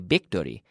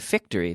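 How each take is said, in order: First: The word starts with a B-like sound. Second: The word starts with a voiced F sound. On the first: The speaker calls it wrong. "Victory sounds terrible to a native English speaker" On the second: The speaker calls it right. "It's better to say victory"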